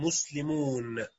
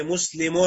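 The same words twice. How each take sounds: First: مسلمون drawn out slowly, long -uun; soft, slow muslimuun, stretching the final vowel in مسلمون; plural nun ending. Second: مسلم said as muslimun, short final -un; singular tanween ending. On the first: Teacher showing the plural nun, مسلمون with long soft -uun. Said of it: "وأضع النون في جمع المذكر السالم". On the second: Teacher giving students the singular مسلم, short -un ending. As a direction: end مسلم on a short nunated -un. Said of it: "أحذف التنوين الذي في المفرد". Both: Shown as a demonstration.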